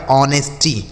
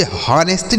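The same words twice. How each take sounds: First: "ऑनेस्टी" starting on the vowel, o-nes-tee; silent H. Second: "हॉनेस्टी" with the H sounded; mispronounced honesty. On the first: Teacher shows children the correct reading, "ऑनेस्टी" with silent H. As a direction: drop the H entirely in "ऑनेस्टी". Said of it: "जो एच है यह silent है". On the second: Teacher shows what not to read, "हॉनेस्टी" with a spoken H. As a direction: start "हॉनेस्टी" on an audible H, ho-nes-tee. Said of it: "तो इसे हॉनेस्टी नहीं पढ़ा जाएगा". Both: Shown as a demonstration.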